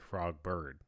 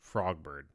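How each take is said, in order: First: The stress falls on the word bird. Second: The stress falls on the word frog. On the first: The speaker calls it wrong. "I wouldn't say" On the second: The speaker calls it right. "Emphasis on frog, not bird"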